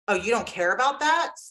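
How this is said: It is asked in an accusing, attacking tone.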